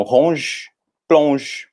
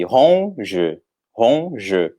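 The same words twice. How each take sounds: First: "ronge" e "plonge" numa sílaba só, sem E final; monossílabo forte. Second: "ronge" partido em duas, "ron... je"; sílabas separadas. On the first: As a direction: diga "ronge, plonge" com força, parando no J. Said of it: "a última sílaba que é forte". ("ronge, plonge" marcados, terminando em J) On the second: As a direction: separe "ronge" como em português, com pausa antes do "je". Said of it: "a gente separaria esse". ("ronge" escandido devagar, com o E final soando) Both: Shown as a demonstration.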